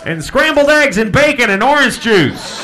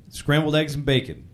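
First: SCRAMBLED EGGS AND BACON hollered high and loud; big diner call, high-pitched and booming; yelled kitchen order. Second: Said in the usual way. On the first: Shown as a demonstration. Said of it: "they yell it to the kitchen".

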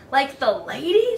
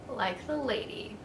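First: Hopeful, lilting question. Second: Said in the usual way. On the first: A narrator's reading. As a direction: ask it hopefully, lifting at the end. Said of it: "the dog asked hopefully". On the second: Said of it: "the owl said".

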